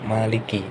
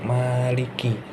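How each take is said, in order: First: The first vowel is said short. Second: The first vowel is said long. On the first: It means king. "Biar bisa dibaca pendek" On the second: It means owner. "atau dibaca panjang"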